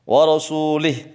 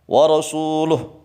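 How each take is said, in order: First: The vowel after the L is i. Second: The vowel after the L is u. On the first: The speaker calls it wrong. "haram menjadi musyrik kalau lamnya di kasrah" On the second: The speaker calls it right. "lamnya di dhammah"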